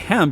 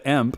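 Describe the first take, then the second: First: It begins with an audible H sound. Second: It begins with no H sound. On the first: The speaker calls it right. "I know you say hemp" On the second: The speaker calls it wrong. "You don't say emp"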